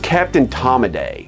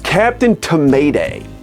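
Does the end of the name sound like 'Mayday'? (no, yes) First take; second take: no; yes. First: The name does not end sounding like Mayday. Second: The name ends sounding like the word Mayday. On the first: The speaker calls it wrong. "Everybody says" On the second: The speaker calls it right. "I'm gonna pronounce this correctly"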